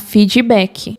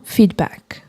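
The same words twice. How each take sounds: First: The word is said with a Brazilian Portuguese accent. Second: The word is said with a native English accent. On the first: The speaker calls it wrong. "Ele capta o som se você falar feedback" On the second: The speaker calls it right. "não feedback"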